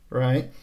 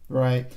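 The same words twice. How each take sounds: Both takes have the same delivery.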